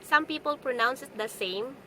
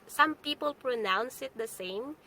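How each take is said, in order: Both takes have the same delivery.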